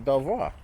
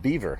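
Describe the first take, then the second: First: The name is said with a French pronunciation. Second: The name is said like the word beaver. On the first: This follows the name's French origin. The speaker calls it right. "they should pronounce it Belvoir. That would be the proper pronunciation" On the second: This is how locals say it. The speaker calls it wrong. "They pronounce it beaver"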